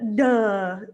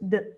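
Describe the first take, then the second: First: The d sound is followed by a vowel. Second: The d sound is said alone, without a vowel. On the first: The speaker calls it wrong. "Try not to duh" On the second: The speaker calls it right. "just d"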